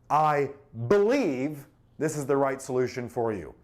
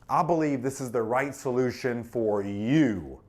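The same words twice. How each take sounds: First: The word "I" carries the stress. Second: The word "you" carries the stress. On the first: The speaker personally holds this view. "Personal conviction?" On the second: The solution is tailored to the listener. "That makes it personal"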